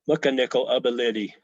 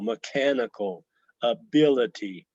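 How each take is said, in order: First: Stress falls on the first and third syllables. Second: Stress falls on the second syllable. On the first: "take it off the second syllable and put it on the first and third" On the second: "the stress or the accent or tone on the second syllable"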